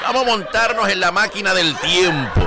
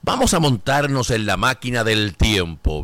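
First: Said in the usual way. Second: A hint of a movie-trailer voice; dramatic low announcement. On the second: Shown as a demonstration. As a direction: announce the time machine trip in a deep mock-dramatic voice.

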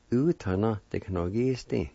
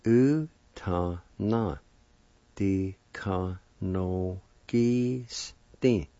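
First: "U tá ná, de ka no gi stin" flowing at word speed; joined-up pronunciation. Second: "u tá ná, de ka no gi stin" very slow, each syllable held apart; slow sounding-out. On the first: Teacher giving the whole term, "U tá ná, de ka no gi stin" joined up. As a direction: run "U tá ná, de ka no gi stin" together without gaps. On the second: Teacher putting both parts together, "u tá ná, de ka no gi stin" slowly by syllable. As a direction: stretch out "u tá ná, de ka no gi stin" piece by piece. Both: Shown as a demonstration. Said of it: "And together".

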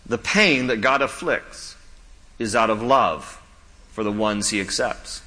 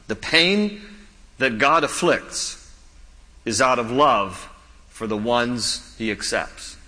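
First: Slow, deliberate restatement; slow emphatic repeat. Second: Slow, weighty delivery; slow emphatic. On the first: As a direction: say it again slowly for weight. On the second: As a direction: lean on each phrase slowly. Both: Shown as a demonstration. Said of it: "Let me say it again".

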